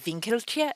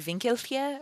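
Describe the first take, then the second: First: The name is said with plain English sounds. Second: The name is said with German-style sounds. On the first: "if it's just Winkelche" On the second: "if it's like German and it's like Winkelche"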